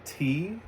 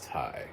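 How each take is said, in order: First: The name sounds like 'tee'. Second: The name sounds like 'tie'. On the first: The speaker calls it wrong. "I know a lot of people see T West" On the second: The speaker calls it right. "I believe it's Ty"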